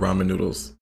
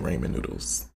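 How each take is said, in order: First: Ramen is said with the standard pronunciation. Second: Ramen is said with the Detroit pronunciation. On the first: The speaker calls it right. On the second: The speaker calls it wrong.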